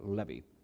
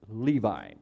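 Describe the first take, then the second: First: The name is said the Hebrew way. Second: The name is said the usual English way. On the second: "you would probably pronounce it Levi"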